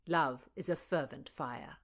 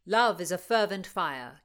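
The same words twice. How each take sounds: First: Said in the usual way. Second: A loud, ringing opening line of verse; declaiming verse. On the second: Acted. Rutland reciting a love poem to Constance, loud and declamatory. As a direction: proclaim "Love is a fervent fire" like a showman.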